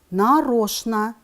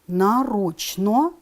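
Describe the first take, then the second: First: It is said with its normal spoken pronunciation. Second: It is read exactly as it is spelled. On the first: "произносим" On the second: "Пишем"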